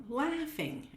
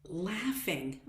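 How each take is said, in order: First: Laughing jumped way up high in pitch; high bright repeat. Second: Said in the usual way. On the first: Shown as a demonstration. Coach repeating laughing to viewers, pitched way up high. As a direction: lift laughing high the second time.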